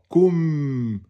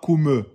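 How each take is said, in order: First: The final m is held without release. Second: The final m ends with an added vowel release. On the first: The speaker calls it right. "on laisse un temps et demi que le son sort" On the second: The speaker calls it wrong. "Ne dites pas kume. Il n'y a pas de qalqala"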